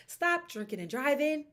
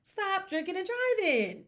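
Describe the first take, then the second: First: Firm command. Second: Much higher and slower, pleading; stunned scold at athletes; exasperated plea. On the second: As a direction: beg them to stop, slow and high. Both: Real, not acted.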